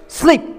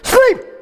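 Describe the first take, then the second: First: It is said gently and softly. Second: It is said forcefully and loudly.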